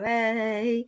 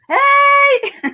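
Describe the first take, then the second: First: It is said quietly with little power. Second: It is said loudly with full power.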